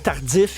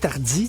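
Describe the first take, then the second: First: The final F sound is pronounced. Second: The final F sound is dropped. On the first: "c'est comme euh, tardif" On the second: "Il y a des gens qui disent tardi. Tu prononces pas le F"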